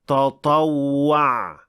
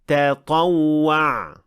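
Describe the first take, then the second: First: The first t sounds heavy and emphatic. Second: The first t sounds light and plain. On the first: The speaker calls it wrong. "the mistake sounds like this" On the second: The speaker calls it right. "تطوع, not"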